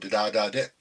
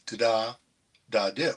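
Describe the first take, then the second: First: It is said smoothly without any pause. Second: It is said with a pause inside it.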